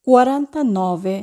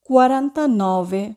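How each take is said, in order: Both takes have the same delivery.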